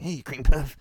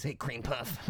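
First: Louder mock jock jeer at a nerd "Hey, cream puff"; jock taunt. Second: Jock taunt. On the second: Retold or imitated. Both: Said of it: "that jocks would call the nerds".

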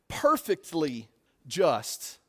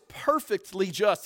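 First: "perfectly" drawn out slowly, word by word; stress on PERFECTLY. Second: Said in the usual way. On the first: Shown as a demonstration. Preacher stressing God's justice to the congregation, slow emphasis on "perfectly". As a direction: stretch out "perfectly", then set "just" apart. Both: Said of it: "I want to stress that word".

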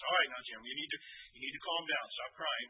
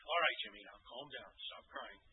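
First: Firmer, louder parental command; more force. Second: Gentle firmness. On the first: Father firmly tells his wailing son to calm down. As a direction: press harder so he listens. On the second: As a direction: settle the crying boy gently. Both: Retold or imitated. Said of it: "a little bit more force".

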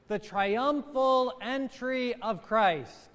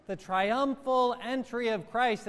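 First: Triumphal drawn out slowly with a falling close; stress on triumphal. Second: Triumphal stressed, phrase lifting at the end; triumphal repeated with a rise. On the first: Priest to congregation, slow stress on triumphal. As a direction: lean on triumphal, slow and weighty. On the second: Priest to congregation, repeats triumphal with rising tune. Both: Shown as a demonstration. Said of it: "I emphasize the word triumph".

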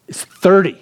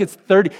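First: High, tense read of the sign; panicked warning. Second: High, urgent repeat of the number; panicked warning, repeated. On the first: Pops reading the exit speed sign, higher and panicked. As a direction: alarm rising in the voice. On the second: Pops warning the driver again, high and urgent. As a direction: sound the alarm. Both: Retold or imitated. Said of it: "the panic in his voice".

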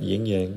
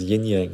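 First: "yin yang" said as "ying yang"; first word of "yin yang" rhymes with "sing". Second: "yin yang" with a plain N ending "yin"; first word of "yin yang" ends in N, no G. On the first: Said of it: "not yin yang, but we changed the spelling". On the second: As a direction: say "yin yang", tongue-tip N closing "yin". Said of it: "I thought that was what it was, yin yang, not yin yang". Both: Shown as a demonstration.

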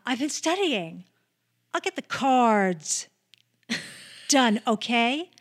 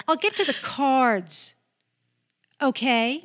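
First: Stagey, slightly louder schoolgirl reading; weird distinctive delivery. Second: Louder stagey retake with a rising okay; weird distinctive delivery. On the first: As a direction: overenunciate it like a stiff actress. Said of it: "she had a weird, distinctive delivery". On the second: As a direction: push the okay up, stiff and theatrical. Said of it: "Like that". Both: Retold or imitated.

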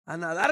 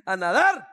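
First: Said in the usual way. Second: "A nadar" called out loud and firm; loud declaration. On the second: Retold or imitated. Pastor answering his friend, loud and defiant. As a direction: ring out the answer. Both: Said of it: "le dije".

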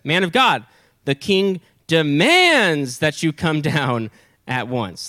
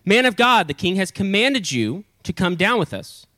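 First: Slow, drawn-out stern command; more serious demand. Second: High, brisk official order; less serious command. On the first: Second captain ordering Elijah down, stern and emphatic. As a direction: stretch out DEMANDS with heavy authority. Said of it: "now listen to how he says it". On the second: First captain summoning Elijah, mildly authoritative. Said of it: "first one was kinda a little bit less". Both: Acted.

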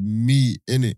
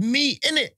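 First: Lower, flat "Meat, innit?"; deep mock host. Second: Higher, tossed-off "Meat, innit?"; higher mock host. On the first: Retelling the host's answer, deep mock voice. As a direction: drop the voice for the host. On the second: Retelling the host's answer, higher mock voice. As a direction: toss it off like the host.

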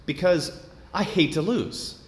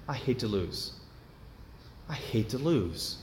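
First: Said in the usual way. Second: Much softer, almost to himself; quiet repeat. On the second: Real, not acted. Preacher repeating his flaw to himself, much softer.

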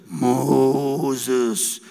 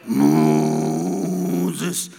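First: Deep, booming call from the film; voice of God. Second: Very deep, drawn-out booming call; voice of God. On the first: God calling Moses from the old film, deep and booming. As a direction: lower and resonant, like God calling. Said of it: "viene Moisés y dice". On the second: God calling Moses in the cinema, very deep and rolling. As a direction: drop far lower and let the name roll out. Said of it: "¿Os acordáis?". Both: Retold or imitated.

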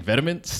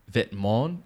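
First: VITAMINS said as VET-uh-ments, every letter sounded; wrong pronunciation. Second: VETEMENTS as vet-MON, final consonants silent; French pronunciation. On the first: Admitting the old mistake, VITAMINS as VET-uh-ments. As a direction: read VITAMINS English-style, VET-uh-ments. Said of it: "I was saying vitamins". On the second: Showing what co-host taught, VETEMENTS as vet-MON. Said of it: "one you educated me on". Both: Shown as a demonstration.

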